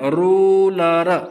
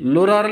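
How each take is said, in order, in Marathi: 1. हा शब्द R आवाजाने सुरू होतो. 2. हा शब्द L आवाजाने सुरू होतो.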